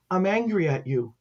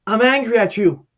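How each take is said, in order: First: Subdued retold reproach; a child's mild, quiet accusation; understated child's anger. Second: Raised, louder accusation; retold angry confrontation. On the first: Dying girl to her caseworker, understated anger. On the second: Bereaved mother confronting caseworker at church, raised angry accusation. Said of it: "She goes".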